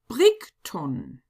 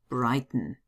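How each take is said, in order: First: The name is read with German letter sounds. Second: The name is read with English letter sounds. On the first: "pronounce them in German" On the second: "better known as Brighton"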